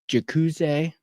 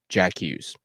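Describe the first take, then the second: First: The name is said with a French accent. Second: The name is said with an English accent. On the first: "my uh, French, I believe that is, is a little rusty" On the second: "Or in English"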